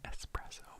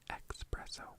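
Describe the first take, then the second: First: The word starts with an 'ess' sound. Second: The word starts with an 'ex' sound. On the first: The speaker calls it right. "But it's espresso" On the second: The speaker calls it wrong. "some people out there who say expresso"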